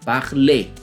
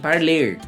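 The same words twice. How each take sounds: First: The word ends in an e sound, no R. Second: The word ends with an audible R sound. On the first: The speaker calls it right. "que na pronúncia vai ser e" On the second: The speaker calls it wrong. "Não é parler e nem parler. Esse som de R não se ouve"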